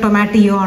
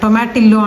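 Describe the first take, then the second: First: The middle consonant is sounded as a Y. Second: The middle consonant is sounded as an L. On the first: The speaker calls it right. "ఇక్కడ ఎల్ అనేది వై లాగా ప్రొనౌన్స్ చేయాలి" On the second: The speaker calls it wrong. "టొమాటిల్లో టొమాటిల్లో అంటారు"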